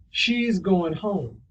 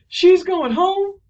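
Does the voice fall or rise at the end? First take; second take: fall; rise. First: The pitch falls at the end. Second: The pitch rises at the end.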